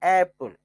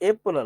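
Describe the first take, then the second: First: The first vowel is a slanted, open 'a' sound. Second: The first vowel is a plain 'ay' sound. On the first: The speaker calls it right. "ಸ್ವಲ್ಪ slant ಆಗಿ" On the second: The speaker calls it wrong. "ಅದು ಏಪಲ್ ಅಲ್ಲ"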